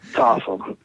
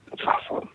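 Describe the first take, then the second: First: Said in the usual way. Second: Hushed afterthought, no voice; breathy aside of awe; whispered repeat. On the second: Shown as a demonstration. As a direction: whisper it to yourself.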